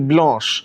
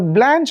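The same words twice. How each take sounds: First: The name is said with a French pronunciation. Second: The name is said with an American pronunciation. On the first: "if you look at the French pronunciation, it is actually" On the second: "is the American pronunciation"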